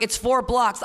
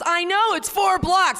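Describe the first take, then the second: First: Said in the usual way. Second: Very high, louder whine; hammed-up sulking newcomer; whiny newcomer. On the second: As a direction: squeak it like a sulky newcomer.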